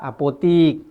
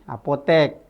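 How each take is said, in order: First: The last syllable has an 'i' vowel. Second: The last syllable has an 'e' vowel. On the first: The speaker calls it wrong. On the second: The speaker calls it right.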